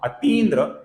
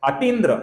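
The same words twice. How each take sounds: First: The second syllable has a long i vowel. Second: The second syllable has a short i vowel. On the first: The speaker calls it right. "ये सही उच्चारण होगा" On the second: The speaker calls it wrong. "ये गलत उच्चारण होगा"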